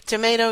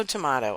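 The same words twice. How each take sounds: First: "Tomato" with a long A, tuh-MAY-toh; American "tomato". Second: "tomato" with an AH, tuh-MAH-toh; British-style "tomato". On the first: Host shrugging off pronunciation differences, "Tomato" said tuh-MAY-toh. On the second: Host shrugging off pronunciation differences, "tomato" said tuh-MAH-toh. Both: Shown as a demonstration. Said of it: "fight their way through the word".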